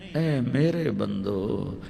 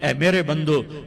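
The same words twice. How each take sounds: First: It is said in a warm, loving tone. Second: It is said in a cold, plain tone.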